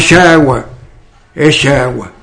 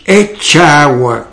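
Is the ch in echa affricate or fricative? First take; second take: fricative; affricate. First: The ch is a soft fricative sh-like sound. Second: The ch is a full affricate tch sound. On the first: This is the local way of saying it. "Entonces decimos, echa agua" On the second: This is how an outsider would say it. "pero no decimos, echa agua, como podría decir, que digo yo, alguien que no fuese"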